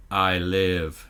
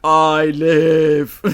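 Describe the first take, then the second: First: Low, eerie creature voice; creepy Proteus voice. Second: Loud creepy echo of the line; creepy Proteus voice. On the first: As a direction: say it like a sinister AI. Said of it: "in the creepy Proteus voice just says". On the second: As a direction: boom it like a robot child. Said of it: "in the creepy Proteus voice". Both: Retold or imitated.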